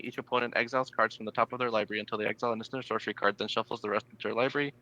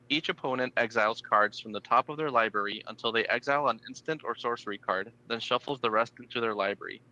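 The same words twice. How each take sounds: First: It is read very fast. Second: It is read more slowly.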